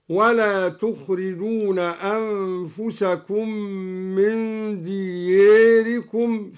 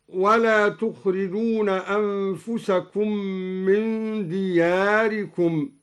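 First: دياركم said close to "diyeerikum"; inclined alef. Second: Said in the usual way. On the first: Shown as a demonstration. Teacher demonstrating al-Duri's reading, دياركم with a long "ee" as in French "é". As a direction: tilt the long a of دياركم toward e. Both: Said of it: "قرأ الدوري بتقليل ألف دياركم".

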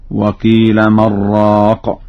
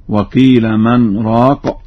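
First: من راق merged into "mar-raaq"; no pause on nun. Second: Said in the usual way. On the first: Shown as a demonstration. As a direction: run من into راق with a doubled r, no break. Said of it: "قرأ ورش بدون سكت على النون". (من راق بإدغام النون في الراء دون سكت) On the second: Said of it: "بدون سكت على النون".

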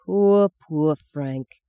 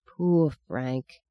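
First: Very slow, drawn-out sorrow; slow sigh. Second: Soft sad sigh of a mother. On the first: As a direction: let each poor sink slowly. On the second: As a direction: sigh it out, quiet and sorrowful. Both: A narrator's reading. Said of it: "she sighed".

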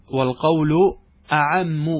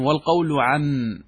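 First: "أعم" with an opening glottal "a" before the ʕayn; hamza restored. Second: "عم" starting straight on the ʕayn; hamza dropped. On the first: Teacher restoring what the poet meant, hamza sounded. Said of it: "اللهم أنه حذف الهمزة". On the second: Teacher quoting the poet's line, hamza dropped. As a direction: say "عم" without an opening hamza, drawn out slowly. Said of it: "حذف الهمزة". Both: Shown as a demonstration.

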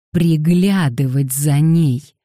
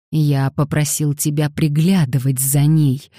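First: Loud, slow "Приглядывать за ней", each word stressed; every word hammered. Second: Restrained anger, firm voice; through clenched teeth. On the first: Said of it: "подчёркивая каждое слово ударом". («Приглядывать за ней» громко, медленно, с ударом на каждом слове) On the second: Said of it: "проговорил сквозь зубы Дэниел". (сквозь зубы) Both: A narrator's reading.

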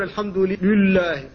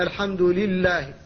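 First: لله with a thick, emphatic lam, slow; heavy lam mistake. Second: لله with a light, thin lam and kasra, slow; thin lam correct. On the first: Teacher warns against some people's reading: emphatic lam in "لله". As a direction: imitate the error by darkening the lam of "لله". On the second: Teacher models correct reading: thin lam in "لله". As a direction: say "الحمد لله" slowly with an unemphatic lam. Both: Shown as a demonstration. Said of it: "لا تقول".

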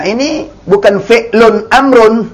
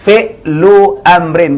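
First: Fi'lun amrun quoted as an error; teacher quotes the wrong form; wrong reading. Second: Fi'lu amrin slow, no tanwin on fi'lu, amrin ending in in; slowly: fi'lu amrin; teacher gives the right reading; correct reading. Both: Shown as a demonstration.

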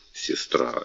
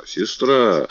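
First: Тихий беззвучный шёпот; прошепчи имя; шёпотом. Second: Said in the usual way. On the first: Acted. (шёпотом, почти без голоса) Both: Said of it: "король подошёл к ней ближе".

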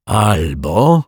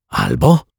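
First: "albo" drawn out and left hanging; "albo" long and unfinished, with a rising end; hesitant break-off. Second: Short, low "Albo" rising into a question, louder; "Albo" as a brief, insistent question; urging prompt. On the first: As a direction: stretch "albo" slowly, then fall silent. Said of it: "pan Mietek zamilkł". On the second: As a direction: toss "Albo" back quickly to hurry him on. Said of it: "ponaglił go detektyw Pozytywka". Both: A narrator's reading.

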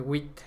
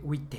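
First: "wheat" ending in a cut-off T; clipped final T. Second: "wheat" with an added "eh" after the T; final T-E. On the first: Showing how the French woman says it, "wheat" with a bare final T. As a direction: end "wheat" on a crisp T, no vowel after. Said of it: "la mujer dice wheat". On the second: Showing how the man says it, "wheat" ending in "teh". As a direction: release "wheat" into a second syllable, "teh". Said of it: "el hombre dice wheat". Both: Shown as a demonstration.

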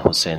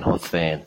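First: Said in the usual way. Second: حسین with th in place of س; imitated lisp. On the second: Shown as a demonstration. Teacher imitating lisping speakers, حسین with a th. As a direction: say حسین as "Hotheyn", tongue tip on teeth.

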